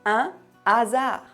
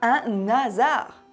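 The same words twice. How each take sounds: First: The n is not carried into the next word. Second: The n is carried into the next word. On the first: The speaker calls it right. "j'ai dit" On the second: The speaker calls it wrong. "pas un hasard avec la liaison"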